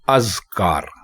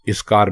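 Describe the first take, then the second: First: The word begins with an 'a' vowel. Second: The word begins with an 'i' vowel. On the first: The speaker calls it right. "इसको अज़कार बोलें" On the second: The speaker calls it wrong. "इज़कार बिल्कुल गलत है"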